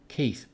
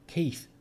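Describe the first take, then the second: First: Said in the usual way. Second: Higher, more insistent second call; urgent call. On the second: Acted. Sean calls his flatmate again, higher and insistent. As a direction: press him, he must listen.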